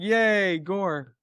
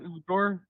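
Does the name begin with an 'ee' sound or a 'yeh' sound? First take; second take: yeh; ee. First: The name begins with a 'yeh' sound. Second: The name begins with an 'ee' sound. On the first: The speaker calls it right. "Like yay, Gore" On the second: The speaker calls it wrong. "not Igor"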